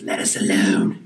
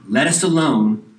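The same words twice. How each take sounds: First: It is said in a put-on demon voice. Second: It is read in his normal voice.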